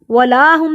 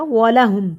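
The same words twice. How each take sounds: First: ولاہم with a long laa in the middle; wrongly lengthened la. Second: ولہم with the middle la kept short. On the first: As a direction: stretch the middle vowel of ولاہم. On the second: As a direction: say ولہم with no stretched vowel. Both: Shown as a demonstration. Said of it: "نہیں پڑھا".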